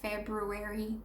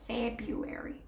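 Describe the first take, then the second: First: The first R is clearly pronounced. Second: The first R is dropped, like Feb-you-airy. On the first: The speaker calls it wrong. "nobody in the States says February" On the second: The speaker calls it right. "the R becomes silent"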